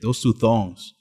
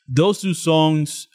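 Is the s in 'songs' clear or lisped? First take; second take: lisped; clear. First: The s sounds are lisped like th. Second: The s sounds are clear, without a lisp. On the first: The speaker calls it wrong. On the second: The speaker calls it right.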